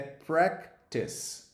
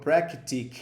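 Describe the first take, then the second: First: The word ends with a soft 'tis' sound. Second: The word ends with a hard 'tic' sound. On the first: The speaker calls it right. "É practice" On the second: The speaker calls it wrong. "eu ouço algumas pessoas falando practic"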